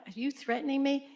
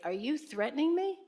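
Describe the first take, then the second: First: High rise on "me" again; calm firm retort; defiant challenge. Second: Sharp high rise on "me"; defiant challenge. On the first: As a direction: put the question straight back at him. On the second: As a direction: push back hard, ending up on "me". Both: Retold or imitated. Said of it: "Just like that".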